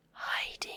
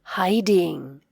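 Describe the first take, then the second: First: Whispered echo of "hiding". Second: Said in the usual way. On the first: Shown as a demonstration. Teacher whispering the word back for kids. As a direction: breathe "hiding" softly with no voice.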